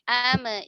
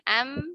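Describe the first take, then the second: First: The final m is released with a small bounce. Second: The final m is held closed without release. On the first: The speaker calls it wrong. "hati-hati jangan sampai memantul ya. Jangan sampai ame" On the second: The speaker calls it right. "Am, im, um, gitu ya"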